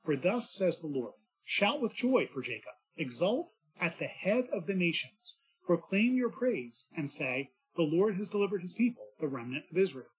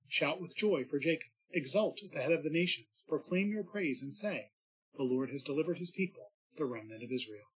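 First: Fervent proclamation. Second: Said in the usual way. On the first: Shown as a demonstration. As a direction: proclaim it with rising joy. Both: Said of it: "He says".

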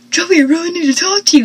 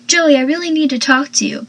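First: Hammed-up frantic yell, rushed and loud; mock screaming. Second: Said in the usual way. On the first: Dawson rushing in to Joey, mock screaming. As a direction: blurt it out fast like a panicked mock scream. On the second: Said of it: "But he's, like, screaming".

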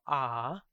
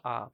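First: "ah" held as a long vowel. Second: "ah" as a short, regular vowel. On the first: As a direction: stretch out the ah. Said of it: "Not the long vowel". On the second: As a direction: say ah without stretching it. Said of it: "but the regular vowel". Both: Shown as a demonstration.

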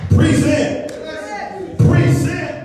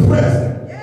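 First: "Present" as pree-SENT, pitched high; second-syllable stress. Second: "present" as PREZ-ent; slow, contrasting "present", PREZ-ent; first-syllable stress. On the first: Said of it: "And it is pronounced present". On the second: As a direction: say "present" like the noun, stressed up front. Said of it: "ways to pronounce it". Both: Shown as a demonstration.

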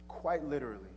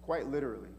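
No difference in how they are said.

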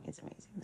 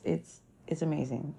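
First: Breathy aside whisper. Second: Said in the usual way. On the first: Pretend. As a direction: whisper it to yourself. Repeats phrase, then whispers it.

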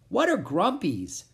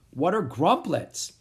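First: Puzzled creature. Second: Said in the usual way. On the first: A narrator's reading. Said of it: "asked Pip".

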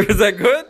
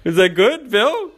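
First: Asked through laughter, high and loud; can barely get it out for laughing. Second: High, loud and delighted; excited teasing. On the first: Friend re-asking Bill, cracking up mid-question. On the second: Friend teasing Bill after the recording, high and gleeful. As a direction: gleefully ask Bill for approval. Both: Real, not acted.

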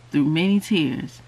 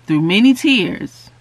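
First: Said in the usual way. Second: "through many tears" stressed on "many", louder; emphatic repeat. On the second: Shown as a demonstration. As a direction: lean into "many".

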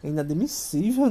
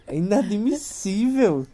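First: Said in the usual way. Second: "inadmissível" drawn out slowly, every syllable weighted; slow emphatic repeat. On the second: Real, not acted. To the wife who didn't cry, a slow, weighted "inadmissível". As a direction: spell out "inadmissível" slowly, in mock outrage.

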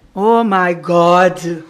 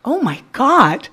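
First: Very slow, low, drawn-out "Oh my God"; Portuguese tune in English. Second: "Oh my God" swooping up and down; English intonation. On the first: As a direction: stretch "Oh my God" out on a low pitch. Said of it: "essa não é a entonação no inglês". ("Oh my God" arrastado e grave, com entonação de português) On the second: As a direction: make "Oh my God" rise and fall widely. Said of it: "entonação no inglês". ("Oh my God" com entonação do inglês, subindo e descendo) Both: Shown as a demonstration.

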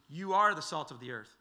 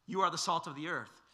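First: "You are the salt of the earth" with weight on "are"; emphatic stress. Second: Said in the usual way. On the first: Shown as a demonstration. Preacher repeating the verse to his listeners, stressing "are". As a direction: press "are" so it lands as a declaration. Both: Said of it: "he makes it emphatic".

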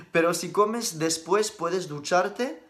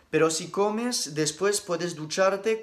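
First: The break goes after "después", so read "Pero si comes después," then "puedes ducharte"; group "comes después" together, then pause; a slow "puedes ducharte" after the break. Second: Slow read with a break after "comes", then "después puedes ducharte"; slow reading, pausing right after "comes"; pause after comes. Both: Shown as a demonstration. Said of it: "entiendo tu duda".

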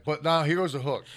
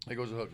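First: Said in the usual way. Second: Softer, secretive repeat of the line; hushed repeat. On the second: Shown as a demonstration. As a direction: drop it to a teasing hush. Teasing the gum reveal.

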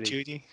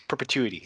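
First: "Perpetuity?" asked as a doubtful question, rising at the end; unsure query. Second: "Perpetuity." said firmly with a falling end; confident repeat. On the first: Repeating a friend's word back, unsure. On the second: Confirming the word after a friend's help, sure. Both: Shown as a demonstration. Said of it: "can you say that, [name]?".

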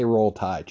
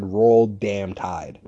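First: Said in the usual way. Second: Slow Roll damn Tide, each word drawn out and leaned on "damn"; stressed damn. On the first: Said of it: "She just couldn't say". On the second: Shown as a demonstration. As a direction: drag out "damn" with mock enthusiasm. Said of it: "just so enthusiastic".

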